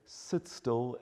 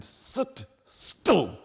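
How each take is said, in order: First: Said in the usual way. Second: "Sit still" said higher and louder, pressed hard on "still" with a falling end; firm emphatic command. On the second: Shown as a demonstration. A parent shows a child the firm way to say "Sit still". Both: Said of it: "much the same to say".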